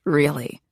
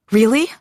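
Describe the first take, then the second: First: Said in the usual way. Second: High rising disbelief; surprised. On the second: Acted. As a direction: ask it in disbelief. Incredulous reply to husband.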